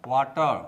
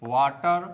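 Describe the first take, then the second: The two takes are said the same way.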